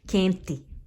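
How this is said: It is said in a Northeastern Brazilian accent.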